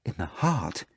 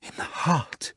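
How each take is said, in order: First: Softer startled question; asking In the heart? in disbelief; shocked exclaiming. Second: Whispered, hollow In the heart. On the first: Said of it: "exclaimed Margarita". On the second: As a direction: repeat In the heart emptily, in a hush. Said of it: "she repeated in a hollow voice". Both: Acted.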